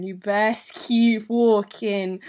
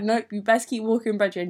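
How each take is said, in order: First: Very slow, louder imitated warning; drawn-out warning. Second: Imitated matter-of-fact brush-off; brisk mock warning. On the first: Best friend sending the boy off, drawn-out firm warning. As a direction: stretch each word, driving it home. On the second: Best friend refusing his handshake, brisk warning to boy. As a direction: wave him along without dwelling on it.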